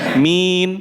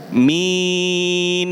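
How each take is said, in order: First: The final n is cut off abruptly. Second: The final n is held a moderate length. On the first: The speaker calls it wrong. "Enggak boleh min. Ini seperti syiddah" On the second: The speaker calls it right. "Ngoten. ... Tapi tengah-tengah"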